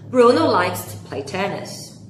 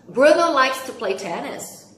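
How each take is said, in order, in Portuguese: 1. A voz desce no final, como numa afirmação. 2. A voz sobe no final, como numa pergunta. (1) "É uma afirmativa" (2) "eu li com tom de pergunta"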